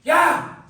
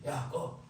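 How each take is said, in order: First: It is said loudly, like a sudden shout. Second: It is muttered quietly, barely moving the lips.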